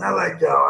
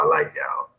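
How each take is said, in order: First: Said in the usual way. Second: The same thanks whispered, with no voice; whispered repeat. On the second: Real, not acted. Host whispering his thanks back to chat. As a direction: breathe it out as a soft aside.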